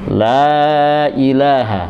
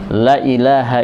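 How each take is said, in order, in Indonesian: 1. Vokal dalam 'la' diucapkan panjang. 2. Vokal dalam 'la' diucapkan pendek.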